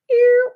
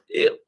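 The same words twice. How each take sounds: First: High, loud disgusted Ew. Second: Said in the usual way. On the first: Retold or imitated. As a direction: squeal Ew. in disgust, louder and higher.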